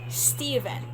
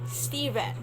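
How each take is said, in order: Both takes have the same delivery.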